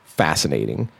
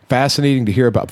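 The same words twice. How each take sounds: First: Fascinating said low, soft and stretched out; drawn-out awed fascinating. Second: Said in the usual way. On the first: Real, not acted. Host telling cohost about a podcast, awed and drawn out. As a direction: let fascinating hang, quietly amazed.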